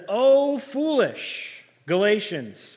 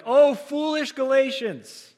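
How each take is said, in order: First: High, slow, loud exclamation of Oh, foolish Galatians; preacher's emphatic rebuke; exclaimed quote. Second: Much higher and louder, slow Oh, foolish Galatians; full-voiced preacher's rebuke; louder, projected. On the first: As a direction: cry out Oh, foolish Galatians with a long drawn-out foolish. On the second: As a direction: project Oh, foolish Galatians to the back row, Oh stretched. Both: Shown as a demonstration. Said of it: "Maybe I need to be a little louder there".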